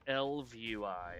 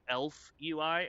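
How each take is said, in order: First: The first part ends with a v sound. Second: The first part sounds like the word elf. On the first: "it's not Elf U I, it's Elv U I" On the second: "as in like a you know night elf, blood elf kind of thing"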